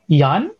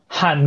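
First: The name begins with a Y sound. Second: The name begins with an H sound. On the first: "they pronounce J as Yan, as Y" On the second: "if you meet Spanish speakers, they say like Han"

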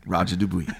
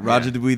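First: It is said in a put-on radio-announcer voice. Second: It is said in an ordinary speaking voice.

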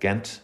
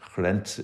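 First: Said with an Irish English pronunciation. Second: Said with the local Flemish pronunciation. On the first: "if you have an Irish accent" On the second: "if you're actually living there"

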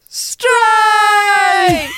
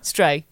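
First: It is said loudly and excitedly. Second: It is said flatly, without excitement.

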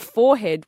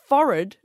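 First: It sounds like 'fore-head', with a clear h. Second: It sounds like 'forrid', with no h sound. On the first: The top part of the face. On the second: The part of the face near the eyebrows.

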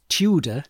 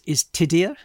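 First: The name is said with an English pronunciation. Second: The name is said with a Welsh pronunciation. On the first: "We English pronounce it Tudor" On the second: "the proper pronunciation you're saying is Tidir"

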